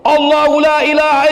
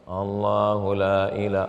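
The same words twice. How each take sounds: First: It is recited loudly and forcefully. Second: It is recited slowly and softly. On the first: The speaker calls it right. "saya bacakan di telinga kanan dia kuat" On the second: The speaker calls it wrong. "Saya tengok mereka baca pelan"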